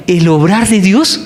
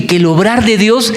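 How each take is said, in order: First: "el obrar de Dios" drawn out slowly, "Dios" leaned on with a rise; slow down and press "Dios"; slow stress on Dios. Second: Said in the usual way. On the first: Shown as a demonstration. Preacher to congregation, pressing "el obrar de Dios" slowly. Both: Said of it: "póngame cuidado".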